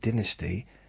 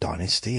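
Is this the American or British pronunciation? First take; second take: British; American. First: It is said with a British pronunciation. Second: It is said with an American pronunciation. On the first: This is how people here say it. "We're calling it Dynasty" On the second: This is how people in America say it. "they call it Dynasty in America"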